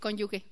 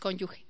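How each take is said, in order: First: The g is a hard sound, like gue. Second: The g is a soft, throaty sound. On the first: The speaker calls it wrong. "no se dice cónyuge" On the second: The speaker calls it right. "es con G, es cónyuge"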